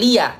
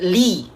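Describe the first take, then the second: First: A vowel follows the 'li' sound. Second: The word ends right after 'li'. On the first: The speaker calls it wrong. "Bukan lia" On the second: The speaker calls it right. "tapi li"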